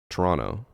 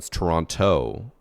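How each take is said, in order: First: The second T is dropped. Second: The second T is clearly pronounced.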